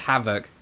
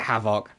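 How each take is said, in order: First: It sounds exactly like the ordinary word havoc. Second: It sounds like hay-vok, with a long first vowel. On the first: The speaker calls it right. "it's pronounced Havoc. ... Because it's causing havoc" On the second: The speaker calls it wrong. "You don't pronounce it Havoc"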